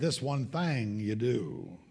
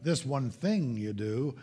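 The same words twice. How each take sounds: First: The word 'thing' is drawled like 'thang'. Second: The word 'thing' has a standard 'ing' vowel. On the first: The speaker calls it wrong. "being raised in the South, ... I would say" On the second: The speaker calls it right. "instead of talking about"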